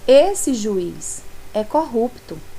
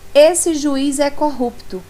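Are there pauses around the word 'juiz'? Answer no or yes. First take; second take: yes; no. First: Short pauses set off the word juiz. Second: The sentence runs on without any pauses. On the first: The judge is being addressed about someone else. "Eu estou dizendo que outra pessoa é corrupta" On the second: The judge himself is called corrupt. "agora eu estou afirmando que o juiz é que é a pessoa corrupta"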